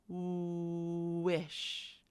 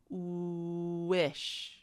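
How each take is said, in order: The two takes are said the same way.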